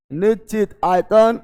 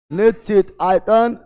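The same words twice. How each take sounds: The two takes are said the same way.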